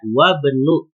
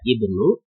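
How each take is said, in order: First: The opening vowel is dropped after wa. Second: The opening vowel i is pronounced. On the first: "kalau ini tidak dibaca karena didahului oleh wa" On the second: "Ibnu ini harus dibaca walaupun hamzah wasal karena di awal kata"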